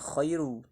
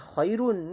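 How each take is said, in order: First: The word ends without any n sound. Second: The word ends with a clear n sound. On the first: The speaker calls it right. "Tapi dibacanya khairu. Tanwinnya seolah-olah lebur" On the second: The speaker calls it wrong. "Enggak dibaca khairun"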